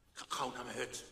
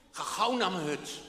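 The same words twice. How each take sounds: First: Quiet and low, to himself; soft. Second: Louder, pushing himself on; firm self-urging. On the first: Old man in the wood muttering to himself, soft. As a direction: murmur it under the rain. Old man's thought, softer take. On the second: Old man urging himself home through the rain, firm. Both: Acted.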